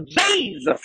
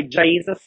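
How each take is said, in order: First: Bigger, drawn-out Southern twang. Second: Lighter take of a Southern twang. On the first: Pastor imitating how people say it, hammed-up Southern twang. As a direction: exaggerate the Southern twang, stretching the first vowel. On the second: Pastor imitating how people used to talk, Southern twang. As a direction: give the name a Southern lilt. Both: Retold or imitated. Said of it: "I love that Southern twang".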